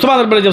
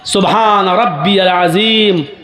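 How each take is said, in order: First: It is said hurriedly, words run together. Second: It is said slowly, each word clear.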